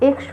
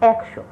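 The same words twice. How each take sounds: First: The first vowel is a closed e sound. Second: The first vowel is an open ae sound. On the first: The speaker calls it wrong. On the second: The speaker calls it right.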